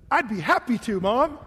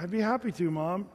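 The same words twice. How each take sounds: First: It is said in a lively, animated way. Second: It is said in a flat, unwilling way. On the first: The speaker is truly willing to do the task. The speaker calls it right. "my dad would get all animated and say" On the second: The speaker does not really want to do the task. The speaker calls it wrong. "Nope, that's not the"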